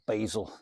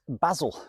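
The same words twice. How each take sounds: First: It is said with an American pronunciation. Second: It is said with a British pronunciation.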